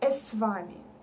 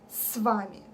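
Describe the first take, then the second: First: A vowel sound comes before the s. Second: It starts directly with the s sound. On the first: The speaker calls it wrong. "They put a sound e before s. It's wrong" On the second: The speaker calls it right. "We say с вами. S"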